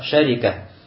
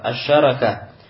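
First: A after sh, i after r. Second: A after sh, a after r. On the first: "с фатхой над шин и с касрой над ра" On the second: "С фатхой как над шин, так и над ра"

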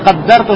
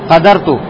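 First: The d sound is held long, doubled. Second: The d sound is short, single. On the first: The speaker calls it wrong. "не каддарту" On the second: The speaker calls it right. "а что? Кадарту"

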